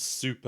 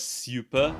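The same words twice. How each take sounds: First: It is said in a plain, ordinary accent. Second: It is said in a posh English accent.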